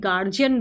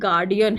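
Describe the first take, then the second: First: The middle consonant is a j sound. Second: The middle consonant is a d sound. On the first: The speaker calls it wrong. "हम इसे गार्जियन बुलाते हैं, but ये गार्जियन नहीं है" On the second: The speaker calls it right. "ये गार्डियन है"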